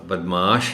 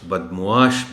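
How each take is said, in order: First: No 'u' sound follows the M. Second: A 'u' sound follows the M. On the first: The speaker calls it wrong. "नहीं" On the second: The speaker calls it right. "ये सही होगा"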